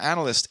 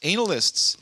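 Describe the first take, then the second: First: It is said like the usual word for financial analysts. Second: It begins with the sound of the word anal. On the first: The ordinary profession is meant. The speaker calls it wrong. "Not analysts" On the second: Experts in anal sex are meant. The speaker calls it right.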